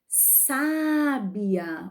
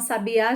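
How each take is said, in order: First: The stress is on the first syllable. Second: The stress is on the last syllable. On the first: Someone is wise. "quando temos o acento aqui, ó, na primeira sílaba" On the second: It is a kind of songbird. "coloca na última vogal, ó, sabe, a, já muda o sonzinho"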